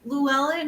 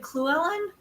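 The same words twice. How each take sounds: First: It starts with a plain English L sound. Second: It starts with a hissing Welsh ll sound. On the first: This is the usual English way of saying it. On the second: This is the Welsh way of saying it.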